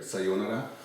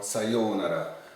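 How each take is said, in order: First: The o vowel is said short. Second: The o vowel is held long. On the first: "you can say it with a short O sound, like here" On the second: "in which case you would have to add in the U letter"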